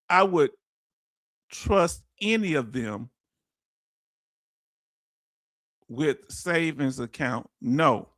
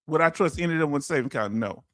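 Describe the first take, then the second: First: Reading the comment out slowly and low; drawn-out, deliberate reading of a viewer's words. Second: Fast rhetorical question, then a low flat no; quick rhetorical repeat. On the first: Retold or imitated. Host slowly reads Farm Girl's comment to the stream, deliberate. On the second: Real, not acted. Host quickly repeats the comment to viewers, brisk and rhetorical. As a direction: rattle it off as a question.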